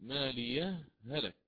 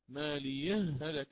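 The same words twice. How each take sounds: First: A brief silent stop separates the two words. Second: The two words run together with the sound merged. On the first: "قرأت حينها بالسكت مالي هلك هكذا" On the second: "أتيت بالإدغام هنا"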